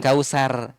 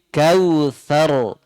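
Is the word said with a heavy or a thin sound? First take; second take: thin; heavy. First: The word is said with a thin, light sound. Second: The word is said with a thick, heavy sound. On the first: The speaker calls it wrong. "tapi itu tipis kalau kausar" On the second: The speaker calls it right. "dia tebal bunyinya"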